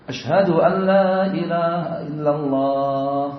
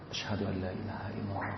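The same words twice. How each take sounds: First: It is said loudly, in a raised voice. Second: It is said quietly, in a low voice. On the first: "Yang kedua dijahar, di, suaranya dikeraskan" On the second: "dibaca lirih"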